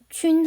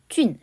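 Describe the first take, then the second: First: The syllable is said on a high level tone. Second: The syllable is said on a sharply falling tone. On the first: It means germ or bacteria. "세균 할 때, 시균 할 때 했을 때는 일성이고요" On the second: It means mushroom. "버섯의 의미로, 모구의 의미로 쓸 때는 균, 사성이 되겠습니다"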